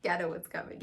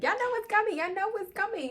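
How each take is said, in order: First: Said in the usual way. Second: Very high excited chant; giddy singsong tease. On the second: Real, not acted. Recapper teasing viewers about what comes next, giddy and high.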